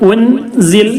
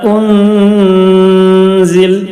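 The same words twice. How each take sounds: First: The n sound is pronounced fully and clearly. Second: The n sound is hidden and nasalized. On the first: The speaker calls it wrong. "ഉൻസിൽ എന്ന് പറയരുത്, അപ്പോൾ വ്യക്തമായി" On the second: The speaker calls it right. "അവിടെ ഇഖ്ഫാ ചെയ്യാണ് വേണ്ടത്, മറച്ച് മണിക്കുക"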